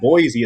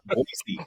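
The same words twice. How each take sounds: First: The middle consonant sounds like a z. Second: The middle consonant sounds like an s. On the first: This is how an outsider says it. The speaker calls it wrong. "no, it's not Boise" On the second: This is how the locals say it. The speaker calls it right. "it's Boise"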